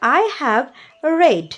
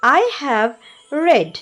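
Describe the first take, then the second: Both takes have the same delivery.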